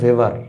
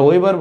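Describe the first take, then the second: First: The name begins with a V sound. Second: The name begins with a W sound. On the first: This is how it is said in German. "এটা জার্মান শব্দ ভেবার" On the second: This is how people here usually say it. "আমরা ওয়েবার বলি"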